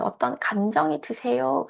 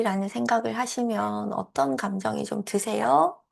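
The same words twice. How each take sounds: First: "어떤 감정이 드세요?" slowly, rising at 드세요; slow question. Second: Said in the usual way. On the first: Shown as a demonstration. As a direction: ask "감정이" slowly and gently. (천천히 "어떤 감정이 드세요?")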